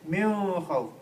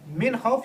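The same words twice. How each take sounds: First: The n is hidden and nasalised. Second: The n is pronounced clearly and fully. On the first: The speaker calls it wrong. "you don't say min khawf" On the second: The speaker calls it right. "you say the noon clearly"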